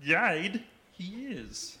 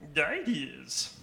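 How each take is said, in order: First: It is said at a slower pace. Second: It is said at a quicker pace.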